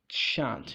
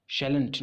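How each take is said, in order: First: शांत as one syllable, "shaant", no l; correct pronunciation. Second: Shalln't with the l sounded, "shal-unt"; common mispronunciation. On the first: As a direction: drop the l, say शांत with a long open vowel. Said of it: "That is". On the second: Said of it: "बहुत लोग कहते हैं". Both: Shown as a demonstration.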